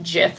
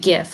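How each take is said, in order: First: The word begins with a soft J sound. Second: The word begins with a hard G sound. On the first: "like the peanut butter" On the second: "like gift without the T"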